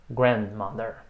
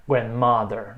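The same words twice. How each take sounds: First: Grandmother stressed on the first syllable, GRAND. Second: Grandmother stressed on its second part, MOTHER; wrong stress on MOTHER. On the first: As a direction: lean on "grand" and let "mother" drop in grandmother. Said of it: "a sílaba é a primeira". (grandmother com a tônica em "grand") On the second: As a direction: throw the weight onto "mo" in grandmother. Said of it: "Não, a sílaba é a primeira". (grandmother com a tônica errada em "mother") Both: Shown as a demonstration.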